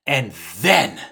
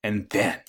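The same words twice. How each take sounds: First: THEN hit harder, voice swooping up; suspenseful stress. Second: Said in the usual way. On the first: Real, not acted. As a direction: lean hard on "then" and hold. Repeats it for dramatic suspense.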